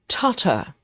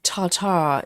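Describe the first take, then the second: First: The stress is on the first syllable. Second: The stress is on the second syllable. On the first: The speaker calls it right. "it's more like Tartar" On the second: The speaker calls it wrong. "we also don't put emphasis um, on the second syllable. Instead of Tartar"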